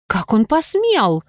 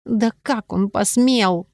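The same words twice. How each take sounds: First: Higher, slow outraged exclamation; indignant exclamation. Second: Slow, drawn-out indignation, falling at the end; indignant anger. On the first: Friend Sophie outraged on heroine's behalf, indignant exclamation. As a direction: cry it out, drawing out "посмел". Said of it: "воскликнула Софи". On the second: Heroine remembering the lord's offer, slow indignant anger. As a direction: stretch out the outrage, stressing "посмел". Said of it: "пришла и злость". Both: A narrator's reading.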